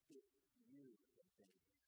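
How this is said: It sounds broken yet trusting.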